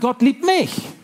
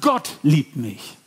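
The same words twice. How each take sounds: First: The word mich carries the main stress. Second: The word Gott carries the main stress. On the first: Amazement that I of all people am loved. "Mich? So habe ich damals gedacht" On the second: It is God, not a human, who loves me. "Wow, da ist ein Gott, der mich liebt"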